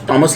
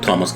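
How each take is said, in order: First: The name begins with a plain t sound. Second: The name begins with an aspirated th sound. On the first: The speaker calls it right. "लफ्ज़ टॉमस ही है" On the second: The speaker calls it wrong. "थॉमस तो कोई लफ्ज़ नहीं है"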